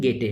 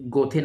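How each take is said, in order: First: The first vowel is 'ay' with a 't' sound. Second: The first vowel is 'oh' with a 'th' sound. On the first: This is the actual pronunciation. The speaker calls it right. "Actual pronunciation गेटे है" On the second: This is how many candidates say it. The speaker calls it wrong. "बहुत सारे aspirant इसे गोथे नाम देते हैं"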